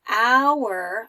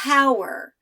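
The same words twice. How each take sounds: First: The word starts without an h sound. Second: The word starts with an h sound. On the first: The speaker calls it right. "I'm not making the H sound" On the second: The speaker calls it wrong. "I don't say hour"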